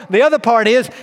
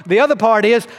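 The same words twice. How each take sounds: The two takes are said the same way.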